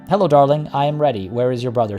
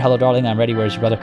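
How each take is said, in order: First: The voice sounds friendly. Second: The voice sounds creepy.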